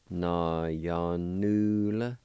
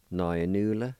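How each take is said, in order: First: Na ya nu la drawn out very slowly, rising on nu; very slow model of Na ya nu la; slow teaching pronunciation. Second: Said in the usual way. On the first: Shown as a demonstration. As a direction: stretch Na ya nu la out for learners to copy. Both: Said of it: "It's pronounced like this".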